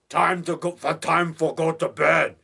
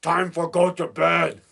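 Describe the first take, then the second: First: Slow, halting imitation of Lobo's broken English; lightly voiced lumbering Lobo, slowly; Lobo impression. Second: Slow, halting Lobo line said once more; a hint of lumbering Lobo, slow; Lobo impression. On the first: Horror fan quoting Lobo from The Unearthly, slow mock voice. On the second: Horror fan repeating Lobo's bedtime line, slow mock voice. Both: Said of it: "He says that in The Unearthly".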